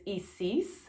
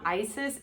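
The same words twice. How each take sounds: First: The first vowel is an 'ee' sound. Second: The first vowel is not an 'ee' sound. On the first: The speaker calls it right. "the I is pronounced as an E" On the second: The speaker calls it wrong. "Isis is not Isis"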